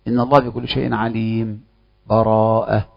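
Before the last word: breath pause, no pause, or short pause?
short pause. A brief silent break without breath before the last word. The reciter briefly halts without fully stopping. "السكت يكون بلا نفس"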